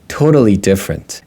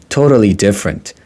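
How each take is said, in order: The two takes are said the same way.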